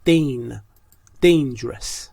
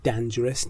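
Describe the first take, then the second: First: Dane, then dangerous opening on the long Dane sound; correct pronunciation. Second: Dangerous said with a short dan as in Dan; wrong pronunciation. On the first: Teacher giving students the correct vowel, split out first. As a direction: stress the Dane in dangerous, stretched clearly. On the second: Teacher quoting the common wrong vowel to students. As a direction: imitate the mistake, dangerous starting with dan. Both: Shown as a demonstration. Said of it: "تلفظش dangerous نیست".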